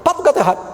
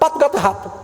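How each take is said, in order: Both takes have the same delivery.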